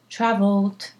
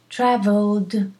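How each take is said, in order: First: The word ends with a voiceless T sound. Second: The word ends with a voiced D sound. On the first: "If you can't, do a T" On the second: "traveled with a D"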